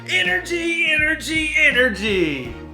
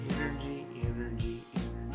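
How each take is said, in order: First: It is said brightly, with high energy. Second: It is said flatly, with low energy.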